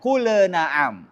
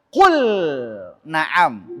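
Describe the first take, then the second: First: The L is followed by a bouncing 'e' sound. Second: The L is clean, with no added vowel. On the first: The speaker calls it wrong. "jangan ... Enggak boleh lahir qalqala, ada bunyi e" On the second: The speaker calls it right. "Jadi lamnya harus jelas"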